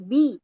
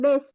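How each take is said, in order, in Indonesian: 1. Vokalnya bunyi i yang jelas dan penuh. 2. Vokalnya condong ke bunyi e. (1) "tapi bi" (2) "Jangan bis"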